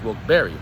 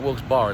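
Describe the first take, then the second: First: The last part is two syllables, like "Barry". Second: The last part is one syllable, like "bar". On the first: The speaker calls it right. "it's Wilkes-Barre. Barry" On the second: The speaker calls it wrong. "It's not Wilkes Bar"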